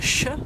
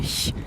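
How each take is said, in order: First: It is a sh sound. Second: It is a soft ich-like hissing sound. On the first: "qui n'est pas le ch" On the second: "mais le ch"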